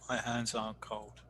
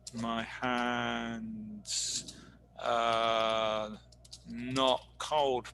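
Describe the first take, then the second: First: The words are and not merge into aren't. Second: The words are and not are said separately. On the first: The speaker calls it right. "es mucho mejor a decir my hands aren't cold" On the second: The speaker calls it wrong. "en este caso no suena tan bueno"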